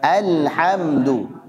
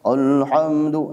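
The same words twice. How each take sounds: First: Alhamdu with a light, even a, slow; balanced thin reading. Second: Alhamdu with a thick, dark a, slow; heavy wrong reading. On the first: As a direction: Alhamdu said thin but not overdone. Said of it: "sama-sama". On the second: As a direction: alhamdu said heavy, not thin. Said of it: "Ah, jadi tebal". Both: Shown as a demonstration.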